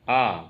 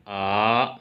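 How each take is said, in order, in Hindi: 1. पिच ऊँचे से नीचे की ओर गिरती है। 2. पिच नीचे से ऊपर की ओर उठती है। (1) "फॉलिंग टोन ... आवाज़ ऊपर से नीचे की तरफ जाती है" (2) "सेकेंड टोन ... आवाज़ नीचे से ऊपर को उठती है"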